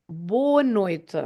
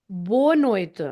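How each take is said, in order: No difference in how they are said.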